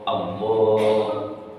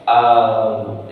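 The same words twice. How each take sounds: First: The first vowel is kept short. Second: The first vowel is drawn out long. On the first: The speaker calls it right. "A-nya nggak boleh panjang" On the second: The speaker calls it wrong. "Itu panjang namanya"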